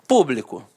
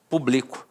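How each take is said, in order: First: The stress is on the first syllable. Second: The stress is on the second syllable. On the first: The word meaning public. "regra da proparoxítona" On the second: A form of the verb publicar. "seria uma paroxítona terminada em O"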